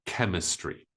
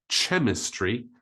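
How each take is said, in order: First: Chemistry starting with K, KEM-iss-tree; hard K. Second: Chemistry mispronounced CHEM-iss-tree; wrong CH sound. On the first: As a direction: say chemistry with a K, not ch. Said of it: "we pronounce it k". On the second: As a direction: start chemistry with ch as in chair. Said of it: "we don't pronounce it". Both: Shown as a demonstration.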